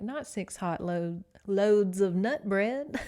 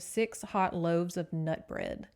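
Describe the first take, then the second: First: Loads said slow and loud for loaves; loud, slow "loads of nut bread"; joke misreading. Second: Said in the usual way. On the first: Shown as a demonstration. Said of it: "And I was like". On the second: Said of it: "the chapter begins with".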